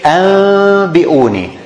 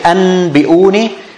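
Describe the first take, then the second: First: A nasalized m sound comes before the b. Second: A plain n sound comes before the b. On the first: The speaker calls it right. "we say" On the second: The speaker calls it wrong. "So we don't say"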